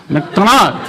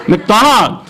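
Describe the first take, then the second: No difference in how they are said.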